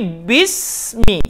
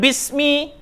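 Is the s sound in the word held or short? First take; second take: held; short. First: The s sound is held for one beat. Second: The s sound is cut short, not held. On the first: The speaker calls it right. "Ada sukun. Makanya satu ketukan" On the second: The speaker calls it wrong. "Jangan bismi"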